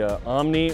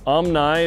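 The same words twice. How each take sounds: First: Omni is said the ordinary, everyday way. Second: Omni is said the Book of Mormon way.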